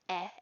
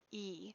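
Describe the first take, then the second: First: The vowel is a short 'eh' sound. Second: The vowel is a long 'ee' sound. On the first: "short vowel"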